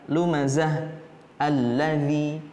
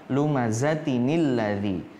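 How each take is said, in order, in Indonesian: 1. Berhenti setelah lumazah tanpa bunyi nun. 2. Langsung tersambung dengan tambahan bunyi nin. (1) "Kalau kita mau waqaf" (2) "Jadinya lumazatinil ladzi"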